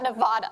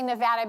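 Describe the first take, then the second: First: It is said with an East Coast pronunciation. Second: It is said with a West Coast pronunciation. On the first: "not Nevada, like everybody on the East Coast" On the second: "I say Nevada because I'm from the West Coast"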